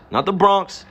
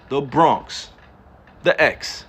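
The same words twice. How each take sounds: First: Said in the usual way. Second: Bronx pronounced with a hard New York street accent. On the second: Shown as a demonstration. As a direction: say Bronx like a local from the hood. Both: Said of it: "talk like this on a regular".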